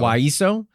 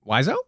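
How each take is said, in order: First: "Waiso" with a hissed s, not z; corrected pronunciation. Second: "Waizo" with a buzzing z, as a question; first-guess pronunciation. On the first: Co-host trying the suggested name, "Waiso" with an s. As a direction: say "Waiso" with an s in the middle. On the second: Co-host checking an island name, unsure "Waizo" with a z. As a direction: say "Waizo" with a z in the middle. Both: Shown as a demonstration. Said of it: "I assume it's Waiso".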